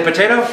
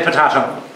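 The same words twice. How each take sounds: First: "potato" said as po-TAY-to; potato, long a. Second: "potato" said as po-TAH-to; potato, broad a. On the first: Quoting one way people say "potato", po-TAY-to. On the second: Answering with the other way people say "potato", po-TAH-to. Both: Shown as a demonstration. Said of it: "Some say potato".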